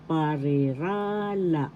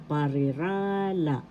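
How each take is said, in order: First: "parirala" said slowly with the accent on "ra"; slow "parirala", lean on the "ra"; stress on third syllable. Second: "parirala" at normal pace with the accent on "ra"; plain-speed "parirala", accent on "ra"; stress on third syllable. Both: Shown as a demonstration. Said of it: "The accent is in the third syllable".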